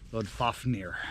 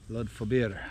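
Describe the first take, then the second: First: The second part of the name sounds like 'Fafnir'. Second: The second part of the name sounds like 'Fobir'. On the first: The speaker calls it wrong. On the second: The speaker calls it right.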